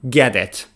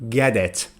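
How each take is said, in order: No difference in how they are said.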